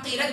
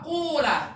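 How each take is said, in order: First: The first vowel is a plain i. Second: The first vowel is a plain u. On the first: "Pertama qila" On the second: "Kedua qula"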